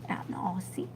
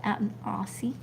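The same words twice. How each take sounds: First: Out in Aussie repeated as a voiceless whisper; whispered echo. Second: Said in the usual way. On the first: Real, not acted. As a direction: echo out in Aussie softly to yourself. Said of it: "whispered echo". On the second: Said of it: "echoes herself".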